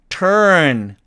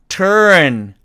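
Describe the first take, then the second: Both takes have the same delivery.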